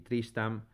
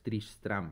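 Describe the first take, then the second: First: The name is said without the second r. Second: The name is said with both r sounds. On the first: The speaker calls it wrong. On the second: The speaker calls it right.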